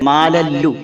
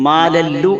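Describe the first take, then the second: Both takes have the same delivery.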